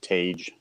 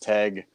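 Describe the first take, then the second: First: The name rhymes with the word page. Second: The name does not rhyme with page. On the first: The speaker calls it wrong. "most people pronounce it Tage, like a page in a book" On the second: The speaker calls it right. "the fact that it's Teg"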